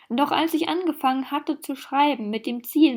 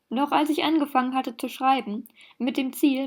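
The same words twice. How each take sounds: First: It is read in one breathless run without pauses. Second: It is read with short pauses between phrases. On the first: The speaker calls it wrong. "Ich kann das nicht so lesen, ich kann nicht mehr atmen" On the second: The speaker calls it right. "ich muss es doch vernünftig lesen, Wir tun so, als wären da Kommas"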